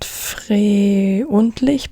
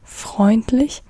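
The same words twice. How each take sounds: First: The eu is not said like oi. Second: The eu is said like oi. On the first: The speaker calls it wrong. "not not freundlich" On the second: The speaker calls it right. "they are like oi"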